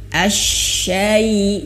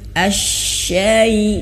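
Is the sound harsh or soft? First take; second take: soft; soft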